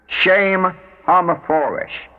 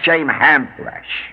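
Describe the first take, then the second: First: The second word keeps all its syllables. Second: The second word drops its middle syllables. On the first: The speaker calls it right. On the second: The speaker calls it wrong. "not shame hamfresh"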